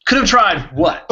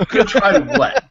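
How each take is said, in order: First: High, loud mock disbelief; bewildered, throw the question up high; baffled outburst, voice jumping up; incredulous. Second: High, loud, breaking into laughter; amused outburst of disbelief; laughing disbelief. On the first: Mock exasperation at cryptic line. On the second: Acted. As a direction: laugh through the bewildered question. Repeat with laughter.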